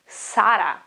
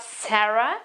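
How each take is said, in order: First: Sara with a clear Italian open a; correct Italian pronunciation. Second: Sarah with an English e-like first vowel; wrong pronunciation. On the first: Teacher giving her own name, Sara said the Italian way. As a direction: say Sara with clear vowels and tapped R. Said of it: "okay, it is". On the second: Correcting her name for learners, Sarah said the English way. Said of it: "my name is not". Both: Shown as a demonstration.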